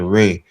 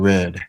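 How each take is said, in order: First: The word ends without a clear d sound. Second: The word ends with a clear d sound. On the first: This is casual slang speech. The speaker calls it wrong. "they say ray" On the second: This is careful, clearly enunciated speech. The speaker calls it right. "instead of saying red"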